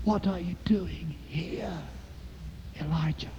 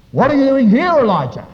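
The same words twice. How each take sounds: First: Gentle whisper. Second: Loud, high demand from God; forceful pulpit cry, dropping on the name; loud challenge. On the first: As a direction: whisper it as a still small voice. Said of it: "a gentle whisper". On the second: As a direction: thunder the question at the prophet. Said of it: "note the difference". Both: Acted.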